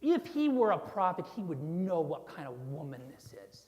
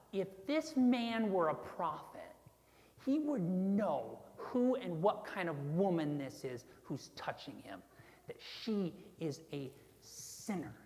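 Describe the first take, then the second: First: Aim the contempt at HE, then drop lower; acted Pharisee scorn, hitting "he" hard; disgust at Jesus. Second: Disgusted. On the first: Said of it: "directing the disgust at Jesus". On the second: Acted. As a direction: sneer it with measured contempt, dropping away on the last words. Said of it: "Can you hear the disgust in his voice?".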